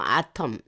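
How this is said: It is said with a Korean 'ah-tom' pronunciation.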